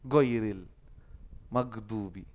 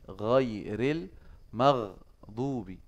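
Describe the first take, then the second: First: The consonant is a hard g as in golf. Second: The consonant is a gargled, r-like throat sound. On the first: The speaker calls it wrong. "Itu kadang-kadang mereka go, ... Dibilang mag, kayak golf itu" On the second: The speaker calls it right. "itu sebenarnya adalah gha, ar. Kayak orang cadel sebenarnya dia"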